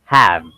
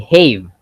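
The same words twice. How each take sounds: First: The vowel is a short 'a' as in cat. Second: The vowel is a long 'a' as in gave. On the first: The speaker calls it right. "you have to say have" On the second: The speaker calls it wrong. "you don't say have"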